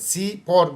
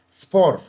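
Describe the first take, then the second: First: The word is split into two syllables. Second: The word is said as one syllable. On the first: The speaker calls it wrong. "dikkat et, spor deme buna" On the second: The speaker calls it right. "Bunu birden okuman gerekiyor"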